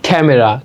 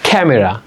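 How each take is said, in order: The two takes are said the same way.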